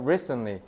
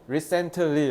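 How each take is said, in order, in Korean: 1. 일부 소리는 줄어들거나 빠져요. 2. 모든 소리를 분명하고 또박또박 발음해요.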